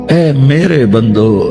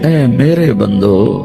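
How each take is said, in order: Both takes have the same delivery.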